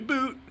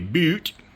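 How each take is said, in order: First: It is said in a plain, ordinary accent. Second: It is said in an exaggerated Canadian accent.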